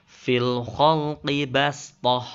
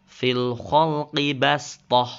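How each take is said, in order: The two takes are said the same way.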